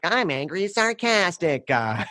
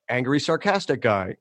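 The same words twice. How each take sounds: First: High, drawn-out mock-sarcastic character voice; Dave Foley as angry sarcastic guy. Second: Said in the usual way. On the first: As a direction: announce the character, slow and pitched way up. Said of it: "Dave Foley came in and was like". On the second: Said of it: "And then Dave Foley came in".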